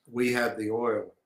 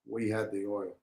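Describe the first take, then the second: First: Said in the usual way. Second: Much softer repeat, letting it sink in; quiet echo. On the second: Real, not acted. Host repeating the point to listeners, much softer. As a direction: drop the voice and say it again.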